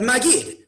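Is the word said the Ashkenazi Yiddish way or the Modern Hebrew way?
Modern Hebrew. It is said in a Modern Hebrew way. It names the storytelling part of the Seder.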